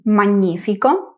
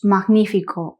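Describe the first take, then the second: First: The gn is sounded as one ny sound. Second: The g and n are sounded separately. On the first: This is the Italian pronunciation. "en italiano G, N, I lo pronunciamos ñi" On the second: This is the Spanish pronunciation. "mientras que en español decimos magnífico o dignidad"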